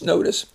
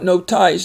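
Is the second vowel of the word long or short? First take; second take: short; long. First: The second syllable has a short, weak vowel. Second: The second syllable has a long I sound. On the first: The speaker calls it right. "it's just notice" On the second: The speaker calls it wrong. "It's not no ties"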